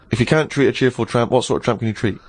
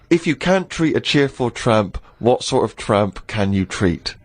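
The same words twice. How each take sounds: First: It is said quickly, as a rapid tongue twister. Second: It is said at a normal, unhurried pace.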